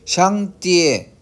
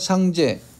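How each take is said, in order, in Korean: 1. 중국식 한자음으로 발음합니다. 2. 한국식 한자음으로 발음합니다. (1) "중국 발음으로 샹띠에이고" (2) "우리나라 한자음 발음이 가장 정확하죠"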